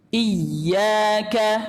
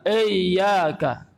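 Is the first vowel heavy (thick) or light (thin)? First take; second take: light; heavy. First: The first vowel sounds light and thin. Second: The first vowel sounds heavy and thick. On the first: The speaker calls it right. "yang betul adalah tipis" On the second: The speaker calls it wrong. "ini tebal"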